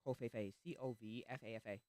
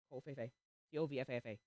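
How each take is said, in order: Both takes have the same delivery.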